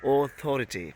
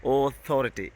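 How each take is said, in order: The two takes are said the same way.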